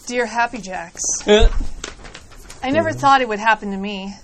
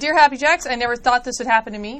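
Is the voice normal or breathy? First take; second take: breathy; normal. First: It is read in a breathy, sexy voice. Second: It is read in a normal voice.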